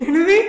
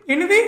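First: Sharp rising louder what; startled, louder exclamation; shocked what. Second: Said in the usual way. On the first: Real, not acted. Shocked at a clip's question.

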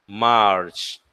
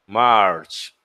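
Both takes have the same delivery.

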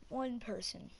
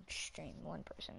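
First: Whisper. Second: Said in the usual way. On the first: Real, not acted. Whispered repeat to self.

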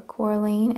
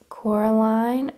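First: "Coraline" said as KOR-leen, ending in "een"; alternative pronunciation. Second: "Coraline" said as KOR-uh-line, ending like "line"; pronunciation variant. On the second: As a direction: say "Coraline" with a long "eye" in the last syllable. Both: Real, not acted. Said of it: "Coraline or Coraline".

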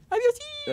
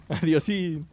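First: Very high playful squeak; squeaky high goodbye. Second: Said in the usual way. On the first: Pretend. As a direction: squeak the word Adiósín very high.

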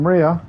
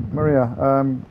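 First: A raised call across the scene. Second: Said in the usual way. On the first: Real, not acted. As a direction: shout her name to get her over. Calling teammate over.

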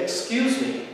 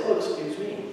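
First: A high, rising "Excuse me" that stands its ground; firm excuse me. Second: "Oh, excuse me" offered lightly, stepping aside; gracious "Oh" rising, then an easy "excuse me"; polite, yielding. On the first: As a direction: say "Excuse me" so nobody runs you over. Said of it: "to introduce yourself to someone as not being easy to run over". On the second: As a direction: let them go past with a courteous "Oh, excuse me". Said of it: "and allow them to go past". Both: Shown as a demonstration.

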